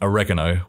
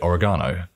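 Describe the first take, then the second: First: It is said with an American pronunciation. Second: It is said with a British pronunciation. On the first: "what you guys would say, ... other Americans ... would say" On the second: "we would say"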